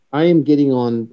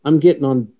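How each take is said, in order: First: "am" spelled out and leaned on; stress on am. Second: Said in the usual way. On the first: Real, not acted. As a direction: insist with a firm "am".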